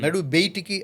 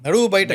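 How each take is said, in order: First: The second word is pronounced 'beyitiki'. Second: The second word is pronounced 'bayataku'. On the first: This is how one particular person says it. "అంటాడేంటి?" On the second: This is how people normally say it. "అంటాం గదా!"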